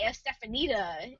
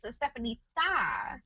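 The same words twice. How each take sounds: First: The next-to-last syllable starts with a 'd' sound. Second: The next-to-last syllable starts with a soft 'th' sound. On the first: The speaker calls it wrong. "they'll say Estefanita and it's like, but there's not a D-A" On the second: The speaker calls it right. "it's a T-H-A, like it's Estefanita"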